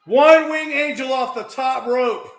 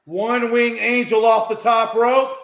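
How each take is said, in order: First: High, loud repeated shout; shouted call. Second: Raised, louder play-by-play; excited call. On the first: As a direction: yell it out as the move lands. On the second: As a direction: call the big move with energy. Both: Real, not acted.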